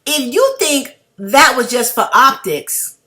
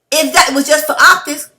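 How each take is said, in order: First: Said in the usual way. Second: Rising heated challenge; getting mad. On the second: Real, not acted. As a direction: push it higher, building anger. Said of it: "See, I'm getting mad".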